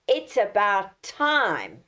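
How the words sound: It is said in an impatient, displeased tone. The speaker is annoyed that someone is late. "if I change the tone of my voice"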